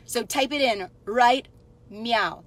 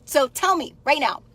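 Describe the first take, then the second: First: "right meow" said as "right meow", now turned into a cat meow; cat pun on now. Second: Said in the usual way. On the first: Shown as a demonstration. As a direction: swap "now" for a playful "meow". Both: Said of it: "that's when I need the kitty filter".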